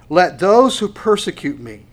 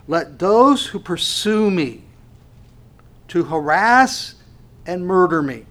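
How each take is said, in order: First: Louder, pressed verse reading; preaching. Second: Slow, louder proclamation; rephrased verse. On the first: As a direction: proclaim the verse. Reads the verse forcefully. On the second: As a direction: press every word home. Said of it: "if I can put it this way". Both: Acted.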